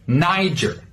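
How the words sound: It has a hard R and a J-like G. "an American pronunciation, you should use a hard R sound... more like a J"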